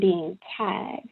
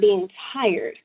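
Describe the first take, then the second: First: Tired is said without its R sound. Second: Tired is said with its R sound. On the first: A deep soul weariness beyond ordinary tiredness. "That goes to being tired" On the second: Ordinary physical tiredness. "that goes way beyond being tired"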